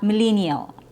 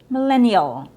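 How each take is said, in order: First: The E vowel is a long ee sound. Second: The E vowel is short and relaxed. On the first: The speaker calls it wrong. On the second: The speaker calls it right. "It has a short E sound"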